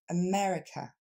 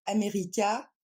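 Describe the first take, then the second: First: America with weak "uh" vowels; America said the English way; reduced vowels. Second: America with a full French "a" throughout; French-style America. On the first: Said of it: "mais on va dire". (America avec les a réduits en « e ») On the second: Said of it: "on ne va pas dire". (America à la française, voyelles pleines) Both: Shown as a demonstration.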